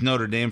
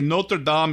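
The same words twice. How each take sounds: First: It is pronounced the American way. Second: It is pronounced the French way.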